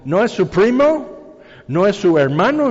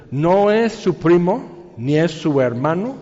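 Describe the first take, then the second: First: Put-on Texan accent. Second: Said in the usual way. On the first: Preacher imitating his Texan friend at the parts store, Texan accent. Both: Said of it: "con su acento muy tejano".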